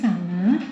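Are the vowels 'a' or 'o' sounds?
a. The vowels are open 'a' sounds. This is the Banyumasan dialect form. "di Cilacap angka sembilan disebut sanga"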